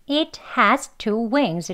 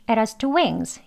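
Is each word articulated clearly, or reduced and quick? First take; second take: clear; reduced. First: Every word is pronounced fully and distinctly. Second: 'It has' is weak and passes quickly. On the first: The speaker calls it wrong. "이렇게 또박또박 발음을 하지 않고요" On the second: The speaker calls it right. "약하게 휙 지나가도록 하는 발음이죠"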